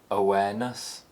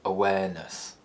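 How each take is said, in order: First: The pitch rises to a high point. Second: The pitch falls from a low starting point. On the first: "the high rise" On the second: "low falls"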